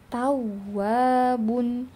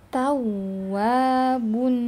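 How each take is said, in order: No difference in how they are said.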